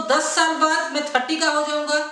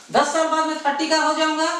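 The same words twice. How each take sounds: The two takes are said the same way.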